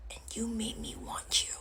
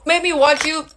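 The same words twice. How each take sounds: First: Barely voiced, wounded accusation; hurt whisper. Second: Higher, fully voiced reproach; aggrieved accusation. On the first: Woman tells ex he won her over, hurt whisper. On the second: Woman repeats her accusation to ex, raised aggrieved voice. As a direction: throw it out high and accusing.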